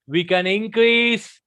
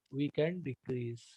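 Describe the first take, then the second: First: Louder and slower on "increase". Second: Much softer, lower. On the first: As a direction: swell the voice up on "increase". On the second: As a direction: drop low and soft on "decrease". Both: Shown as a demonstration.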